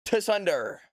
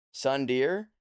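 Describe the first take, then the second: First: "Tsunder" opening on a sounded T before the S. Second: "Sundeer" starting on a plain S, questioning; without the T. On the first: Streamer tries saying the T in "Tsunder", T pronounced. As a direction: hit a T at the front of "Tsunder". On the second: Streamer asks chat how to pronounce it, "Sundeer" without the T. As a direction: say "Sundeer" with no T sound in front. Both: Shown as a demonstration. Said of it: "do you say the T".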